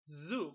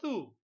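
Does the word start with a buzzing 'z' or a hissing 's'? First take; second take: buzzing z; hissing s. First: The word starts with a buzzing 'z' sound. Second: The word starts with a hissing 's' sound. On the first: The speaker calls it right. "Como un insecto. Zzz. Recordad que la Z se pronunciaba zzz" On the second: The speaker calls it wrong. "No zoo"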